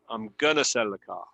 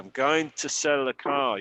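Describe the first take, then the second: First: "Going to" is merged into one word, "gonna". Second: "Going to" is reduced but still two words. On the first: "la otra pronunciación es muy informal" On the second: "es muy reducido este"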